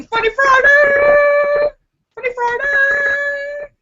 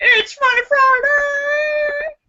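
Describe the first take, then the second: First: High, slow, loud sing-song shout; show opener. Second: High, slow crying sing-song; show opener. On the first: Opening Funny Friday for her viewers, high sing-song shout. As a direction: announce it like a game show host. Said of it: "announces show segment". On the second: Reintroducing Funny Friday to viewers, laughing sing-song. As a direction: wail the show's name through laughter. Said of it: "repeats show opener". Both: Real, not acted.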